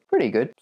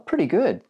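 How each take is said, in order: First: The pitch stays level and calm. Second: The pitch goes up high and lively. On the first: Things are good. "pretty good means things are good" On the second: Things are great. "if we go up there, oh, pretty good means things are great"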